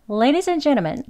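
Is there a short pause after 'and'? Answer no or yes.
no. 'And' runs straight into the next word. "빠르게 아주 발음하는 경우죠 ... 바로 뒤에 오는 단어의 발음을 바로 이어서 합니다"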